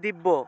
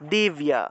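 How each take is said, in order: First: It is said without a y glide after the b. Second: It is said with a y glide after the b. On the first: This is the Bengali pronunciation. "বাংলায় বললে দিব্য" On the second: This is the Sanskrit pronunciation. "সংস্কৃত উচ্চারণটা হবে দিব্যা"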